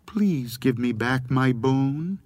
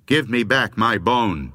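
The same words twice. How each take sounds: First: A small, slow, pleading ghostly voice; a plaintive little voice, unhurried. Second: A touch of anger, pressed a bit louder; the bone's owner losing patience; growing angry. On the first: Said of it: "she heard a small voice". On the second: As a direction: demand it, annoyance starting to show. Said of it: "It was beginning to sound angry". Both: A narrator's reading.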